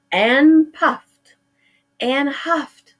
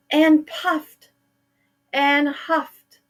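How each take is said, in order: Both takes have the same delivery.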